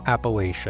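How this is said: It uses the Northeastern regional pronunciation.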